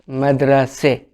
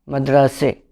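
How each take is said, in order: First: The word ends with a front 'e' vowel. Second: The word ends with a front 'e' vowel.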